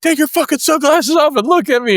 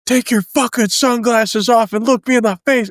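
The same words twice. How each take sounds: First: Higher, sharper shouted command; barked order. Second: High, commanding shout; barked order. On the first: Sergeant repeating his order to the recruit, sharper high shout. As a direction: bark it again even harder. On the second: Sergeant ordering a recruit to take off his sunglasses, high barked command. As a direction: bark the order right in his face. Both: Retold or imitated.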